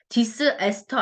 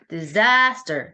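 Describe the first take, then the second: First: The second syllable is not given the stress. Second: The stress falls on the second syllable. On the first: The speaker calls it wrong. "disaster 아니죠" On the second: The speaker calls it right. "뒤에 A에 또 강세가 있거든?"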